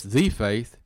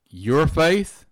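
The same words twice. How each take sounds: First: "the" drawn out slowly as "thee"; single out "the", said long as "thee"; stress on "the". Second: "your" lifted high and louder, set apart; stress on "your". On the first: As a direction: stretch "the" into "thee" before "faith". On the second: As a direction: lean hard on "your" to single it out. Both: Real, not acted. Contrasting three kinds of faith.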